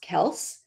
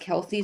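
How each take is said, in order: First: The name is said as one syllable. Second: The name is said as two syllables. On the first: The speaker calls it right. "It's pronounced Kels" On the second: The speaker calls it wrong. "it's been mispronounced Kelsey"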